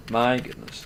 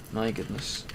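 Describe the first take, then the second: First: Said in the usual way. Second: Sighing. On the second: Real, not acted.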